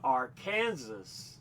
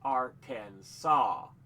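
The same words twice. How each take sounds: First: It is read the way it is spelled. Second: It ends with a 'saw' sound. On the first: The speaker calls it wrong. "Even though it's spelled Arkansas" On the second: The speaker calls it right. "it's Arkansas"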